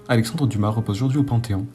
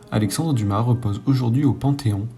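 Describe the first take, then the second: First: It is read at normal speed. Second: It is read slowly.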